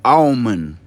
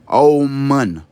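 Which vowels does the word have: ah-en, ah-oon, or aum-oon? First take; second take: aum-oon; aum-oon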